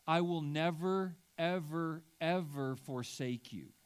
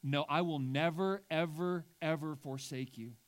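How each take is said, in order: First: "ever, ever" repeated and weighted; stress on each ever. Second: "ever, ever" stacked with rising weight; insistent "never, ever, ever forsake you"; emphatic triple ever. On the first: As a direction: stack the evers with weight. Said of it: "I added some evers". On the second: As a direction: drive home each "ever". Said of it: "we're being told that God says". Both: Shown as a demonstration.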